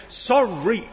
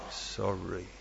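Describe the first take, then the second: First: Put-on a sulky, grudging child's sorry with a rising end; defiant sorry. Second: Barely audible, much softer and much lower sorry; inaudible sorry. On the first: Preacher mimics a child forced to apologise, defiant. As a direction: toss the word off like a stroppy kid. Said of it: "There's the defiant sorry". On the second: Preacher mimics a child's reluctant apology, nearly inaudible. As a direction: mumble it so nobody can hear. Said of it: "And there's the inaudible one". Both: Shown as a demonstration.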